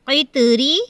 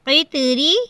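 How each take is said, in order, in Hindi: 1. r की आवाज़ पतली और हल्की बोली जाती है। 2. r की आवाज़ पतली और हल्की बोली जाती है।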